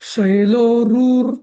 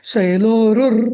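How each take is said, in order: First: The 'ru' vowel is held long. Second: The 'ru' vowel is kept short. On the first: The speaker calls it wrong. "रू दीर्घ वाटला मला जरा" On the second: The speaker calls it right. "असं म्हटलं की तो दीर्घ होतच नाही"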